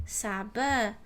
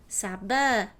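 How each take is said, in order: No difference in how they are said.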